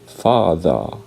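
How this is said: It is said in a British accent. "British people would say father"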